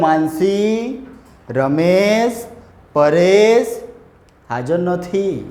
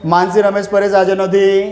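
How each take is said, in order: First: Short pauses separate each of the names. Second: The names run together without any pauses. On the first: The speaker calls it right. "શાંતિથી બોલાવવું હોય" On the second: The speaker calls it wrong. "અહીંયા કે speed breaker એવું કંઈ લગાવ્યું જ નથી"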